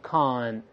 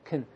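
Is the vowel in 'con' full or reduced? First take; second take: full; reduced. First: The syllable is stressed with a full vowel. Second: The syllable is unstressed with a reduced vowel. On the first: "重读是con" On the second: "con 在轻读的时候读成con"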